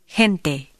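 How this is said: The first sound is a very soft h. This is how it sounds in Central America and the Caribbean. "In Central America and the Caribbean, it is even softer"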